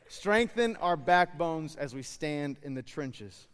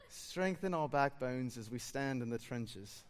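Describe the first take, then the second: First: Said in the usual way. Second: Slow, laughing attempt at a South African accent; a friend's South African prayer, fumbled through giggles. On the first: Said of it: "I'll say it in American". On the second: Pastor imitating his South African friend's prayer, South African accent. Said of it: "an accent that I'm gonna attempt to do".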